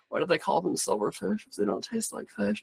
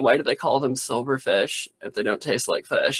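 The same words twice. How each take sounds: First: It is said in a put-on stage voice. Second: It is said in the speaker's normal voice.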